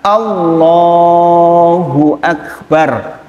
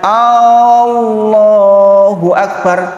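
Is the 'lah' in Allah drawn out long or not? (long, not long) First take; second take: long; not long. First: The 'lah' syllable is drawn out long. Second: The 'lah' syllable is not drawn out. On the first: God is the Greatest. The speaker calls it right. "ucapan yang betul adalah Allahu Akbar, lohnya yang panjang" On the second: Is God great? The speaker calls it wrong. "opo Gusti Allah ki gede toh?"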